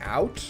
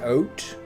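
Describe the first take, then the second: First: The word is said with an American vowel. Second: The word is said with a Canadian vowel. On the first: "where Americans say it like out" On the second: "They pronounce O U T like out"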